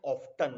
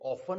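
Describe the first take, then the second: First: Often with a hard t, OFF-ton; t sounded. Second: Often with the t silent, like OFF-en. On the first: Teacher showing the way to avoid, often with a hard t. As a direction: pronounce the t in often. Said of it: "इसे often नहीं बोलेंगे". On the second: Teacher showing how some people say it, often with silent t. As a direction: say often as "offen", no t. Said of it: "exact pronunciations की often है". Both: Shown as a demonstration.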